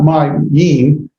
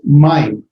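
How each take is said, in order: First: The word is split into two syllables. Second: The vowels merge into one gliding syllable. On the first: The speaker calls it wrong. "it's not my yim" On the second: The speaker calls it right. "all pronounced as one vowel"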